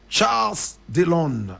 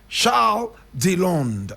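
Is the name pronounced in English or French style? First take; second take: French; French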